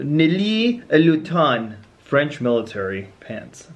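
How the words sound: It is said in a put-on French accent. "that's my French accent"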